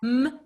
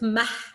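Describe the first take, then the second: First: The consonant is said alone without a vowel. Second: The consonant is followed by an added vowel. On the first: The speaker calls it right. "It's a m" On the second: The speaker calls it wrong. "it's not mah, as I used to say"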